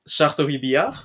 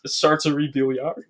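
First: It is said with a French accent. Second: It is said with an English accent.

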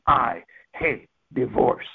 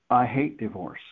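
First: It is said angrily, pounding and forceful. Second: It is said sorrowfully, full of pain.

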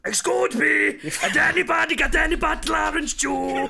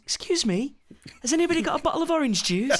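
First: The line is shouted at a very loud volume. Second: The line is said at a normal, quiet volume. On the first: This is the character's odd, over-the-top delivery. "Super loud" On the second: This is the ordinary way to deliver the line. "that's how it should be delivered"

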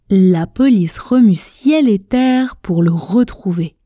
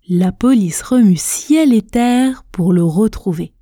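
The two takes are said the same way.

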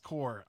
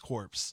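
First: The word ends without p or s sounds. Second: The word ends with audible p and s sounds. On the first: The speaker calls it right. "The P and S are silent" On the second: The speaker calls it wrong. "Did I say it wrong? / Don't ever say corpse"

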